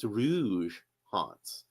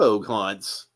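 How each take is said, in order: First: The first word ends with a soft zh sound. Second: The first word ends with a hard g sound. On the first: The speaker calls it right. "So it's Rouge Haunts" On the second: The speaker calls it wrong. "I'm saying it wrong"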